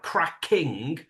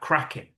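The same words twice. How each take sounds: First: The final G sound is fully pronounced. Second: The final G sound is dropped. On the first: "instead of like cracking" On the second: "it sounds more like cracking"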